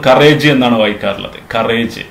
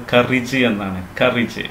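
First: കറേജ് as "ka-RAYJ"; long "-ayj" ending on കറേജ്; common mispronunciation. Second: കറിജ് as "KUR-ij"; short "-ij" ending on കറിജ്; correct pronunciation. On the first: Teacher showing the usual misreading, കറേജ് as "ka-RAYJ". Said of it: "ഇത് നമ്മൾ". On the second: Teacher modelling for learners, കറിജ് as "KUR-ij". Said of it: "ഇത് വായിക്കേണ്ടത്". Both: Shown as a demonstration.

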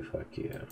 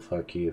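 First: Whispered curse. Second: Said in the usual way. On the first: Acted. Same curse repeated under breath.

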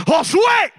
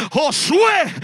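First: Loud, high shouted call of a name; very strong voice. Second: Loud, raised call of a name; strong voice. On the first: God's voice calls the sleeper a second time, very strong shout. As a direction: boom it out to startle a sleeper awake. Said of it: "pero más fuerte". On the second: God's voice calls the sleeping man by name, strong voice. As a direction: imitate a powerful voice calling into the room. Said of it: "se mete una voz fuerte". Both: Retold or imitated.

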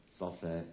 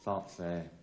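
No difference in how they are said.

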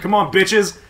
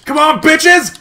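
First: Said in the usual way. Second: Shout. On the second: Acted. Rallying teammates, shouted louder.

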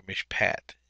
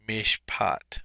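First: "mishpat" ending like English "pat"; short-A pronunciation. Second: "Mishpat" ending like "pot"; "Mishpat" as mish-PAHT; broad-A pronunciation. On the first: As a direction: say "mishpat" with the vowel of "cat" last. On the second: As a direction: say "Mishpat" with an open ah in the last syllable. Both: Shown as a demonstration. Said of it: "whichever way you want to pronunciate".

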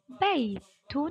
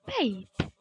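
First: "بيت" pronounced baytun, ending voiced; "بيت" with tanween sounded at the end; full case ending. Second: "بيت" stopped on a final t, bayt; "بيت" as one syllable, closing on t; pausal form. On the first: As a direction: say "بيت" as bay-tun, with the -un ending. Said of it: "عند الوقف بيت". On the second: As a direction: say "بيت" without any case ending. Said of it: "عند الوقف". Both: Shown as a demonstration.

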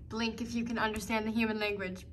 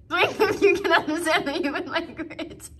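First: Said in the usual way. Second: Playful pet-talk. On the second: Pretend. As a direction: repeat it goofily to a pet, near laughing.

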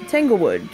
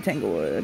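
First: Said in the usual way. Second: Tanglewood dropped very low and soft; playful low voice. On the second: Pretend. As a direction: growl the name in a mock deep voice. Playful repeat of brand name.

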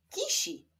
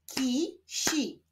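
First: Said in the usual way. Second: KI, pause, SI; syllable by syllable. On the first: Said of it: "Powstaną z nich wyrazy". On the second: Shown as a demonstration. Teacher joining syllables for learners, Ki-si split apart. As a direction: break "Kisi" into two held syllables. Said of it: "łączmy sylaby".

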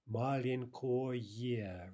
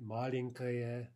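First: "Маленькое" very slow with full o and clear ye; spelling pronunciation. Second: Said in the usual way. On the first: Shown as a demonstration. Teacher showing neuter ending, "Маленькое" slowly with unreduced ko-ye.

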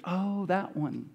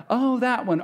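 First: Flat, slow and soft, unimpressed; deadpan. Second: Shocked realization. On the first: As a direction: say it dully, like it's no news. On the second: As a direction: say it like the penny just dropped. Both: Retold or imitated. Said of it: "No, it's like".

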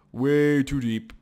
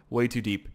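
First: Slow, emphatic repeat; drawn-out emphasis. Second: Said in the usual way. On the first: Real, not acted. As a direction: stretch the words out for emphasis.

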